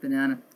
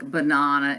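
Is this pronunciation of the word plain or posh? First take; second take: plain; posh. First: The word is said in a plain, ordinary way. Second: The word is said in a posh, affected way. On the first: The speaker is talking normally. The speaker calls it right. "instead of" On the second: The speaker is trying to sound refined. The speaker calls it wrong. "she was très pretentious and would th- say things like banana"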